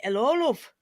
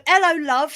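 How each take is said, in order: First: 'Ello, love in a northern English accent, with love as "lov"; a northern bloke saying "'Ello, love". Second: 'Ello, love said the London way, louder and brighter; a light London "'Ello, love" with a dropped h; London accent. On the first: British guest contrasting the northern take with the London one. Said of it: "that would be in northern accent". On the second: British guest showing the London version to her host. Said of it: "said in the way you say it would be a London thing". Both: Shown as a demonstration.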